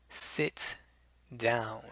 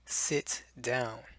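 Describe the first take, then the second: First: The T in sit is clearly and tensely released. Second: The T in sit is not clearly released.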